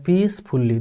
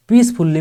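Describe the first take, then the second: First: पीसफुल्ली as two beats, पीस then फुल्ली; split in two. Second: Said in the usual way. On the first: Shown as a demonstration. Teacher dividing पीसफुल्ली for students, split in two. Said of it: "दो टुकड़ों में हम इसे divide कर सकते हैं". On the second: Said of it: "में दो शब्दांश हैं".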